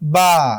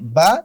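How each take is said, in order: First: The vowel is long. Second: The vowel is short.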